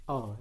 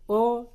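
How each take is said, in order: First: Second O open and wide; O pronounced wide, not like u. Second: First O close and rounded; O pronounced narrow, nearly u; closed O. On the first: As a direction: say O open, as in pokok. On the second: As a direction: say O tight, as in toko. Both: Shown as a demonstration. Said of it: "cara membedakan O dan O".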